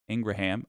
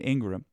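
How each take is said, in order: First: The name is said with three syllables. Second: The name is said with two syllables. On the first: The speaker calls it right. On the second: The speaker calls it wrong.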